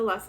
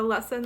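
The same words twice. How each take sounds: First: The N sound in the word is dropped. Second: The N sound in the word is pronounced. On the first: The speaker calls it wrong. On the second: The speaker calls it right.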